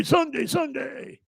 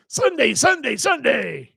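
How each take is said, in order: First: Very high, drawn-out announcer shout; monster truck ad. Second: Very high, booming announcer Sunday chant; monster truck ad. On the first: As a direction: yell it slowly like a monster truck promo. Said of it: "Or is that, is that Sunday". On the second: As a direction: hype it like a monster truck rally ad. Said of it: "be the monster truck guy". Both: Pretend.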